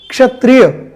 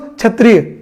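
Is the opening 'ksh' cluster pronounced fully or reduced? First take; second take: full; reduced. First: The opening consonant cluster is a clear full ksh. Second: The opening consonant cluster is simplified, not full. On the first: The speaker calls it right. "We use K S H for ksha" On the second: The speaker calls it wrong. "Many people use kshatriya"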